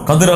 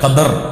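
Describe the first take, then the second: First: The second syllable has an 'i' vowel. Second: The second syllable has an 'a' vowel. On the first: The speaker calls it wrong. "கதிர் அல்ல" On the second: The speaker calls it right.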